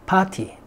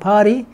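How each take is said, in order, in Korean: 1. 영국식 발음으로 말합니다. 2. 미국식 발음으로 말합니다. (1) "영국에서는" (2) "미국에서는"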